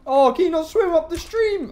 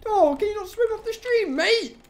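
First: High, loud mock sympathy; mocking taunt. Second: High, sing-song mock concern; mocking taunt. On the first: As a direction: tease it as it flounders. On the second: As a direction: rub it in, teasing. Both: Real, not acted. Mocking fleeing animal.

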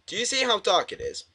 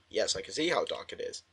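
First: Lightly voiced game character, pitched high; high, lightly put-on questioning voice; character's question. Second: Soft, low-pitched answer; low quiet reply. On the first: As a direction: read it out in a higher character voice. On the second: Real, not acted. Player answers the character drily.

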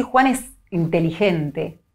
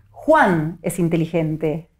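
First: Slow, ironic "Juan es inteligente". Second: Slow, "Juan" stressed as the one meant. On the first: Neuropsychologist demonstrating, slow mild irony. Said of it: "estoy siendo un poco irónica". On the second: Neuropsychologist demonstrating, slow stress on "Juan". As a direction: lean on "Juan" in "Juan es inteligente". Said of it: "es Juan y no Pedro". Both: Shown as a demonstration.

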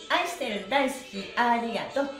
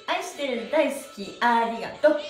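No difference in how they are said.

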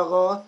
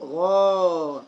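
First: غا cut short, just a brief a after the غ; short-vowel demo of غا; short fatha. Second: غا held long on a steady aa; long-vowel demo of غا; long alif vowel. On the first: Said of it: "غين فتحة". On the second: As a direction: stretch the vowel of غا well out. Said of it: "غين مد بالألف". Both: Shown as a demonstration.

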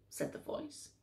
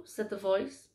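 First: Whispered. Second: Said in the usual way. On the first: A narrator's reading. Narration repeated, whispered.

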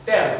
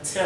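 First: "tell" with a hard French T; wrong "tell", no air on the T; unaspirated T. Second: "tell" with a puff after the T; aspirated T. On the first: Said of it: "c'est pas tell". (« tell » avec un T sec à la française) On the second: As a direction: let air out on the T of "tell". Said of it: "mais c'est tell". (« tell » avec un T bien soufflé) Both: Shown as a demonstration.

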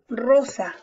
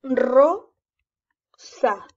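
First: Said in the usual way. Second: "rosa" broken up, a loud rolled ro... then sa; syllable by syllable. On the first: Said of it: "lo lees de una sola vez". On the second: Shown as a demonstration. Teacher modelling reading for a pupil, syllable by syllable. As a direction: sound out "rosa" with a long gap between syllables. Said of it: "puedes leer en sílaba".

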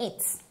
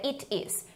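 First: "it's" as one short, soft syllable; contracted form. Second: "it is" in two words; full form. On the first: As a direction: end "it's" straight on ts. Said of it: "Aqui tá abreviado". ("it's" abreviado, curto) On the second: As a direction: sound the vowel of "is" in "it is". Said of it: "Aqui, como não tá abreviado". ("it is" sem abreviar, duas palavras) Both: Shown as a demonstration.

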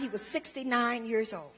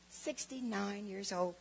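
First: Said in the usual way. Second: Put-on "Sixty-nine years old" said slowly and softly, letting it sink in; slow, hushed repeat. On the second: Shown as a demonstration.

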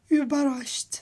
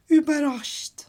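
No difference in how they are said.

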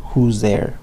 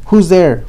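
First: Said in the usual way. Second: Higher, louder, shouted Who's there; loud call through the door. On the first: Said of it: "the joke comes after you say". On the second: Acted. Okay, says Cowboy.

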